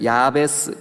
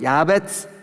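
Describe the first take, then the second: First: The last syllable starts with a plain s sound. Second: The last syllable starts with a ts-like sound. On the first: This is how the name is written in the Korean Bible. "우리 성경 야베스 그렇게 돼 있지만" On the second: This is the original pronunciation of the name. "치옷하고 시옷하고 중간 발음이에요. 야베츠, 야베츠 이렇게 발음해요"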